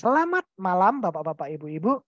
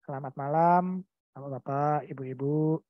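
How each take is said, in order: First: The voice is lively with varied intonation. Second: The voice is flat and monotone throughout. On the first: The speaker seems engaged with the audience. The speaker calls it right. "dikasih uh, semacam apa ya intonasi" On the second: The speaker seems uninterested in the audience. The speaker calls it wrong. "nada suaranya monoton"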